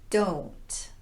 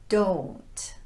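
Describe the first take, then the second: Both takes have the same delivery.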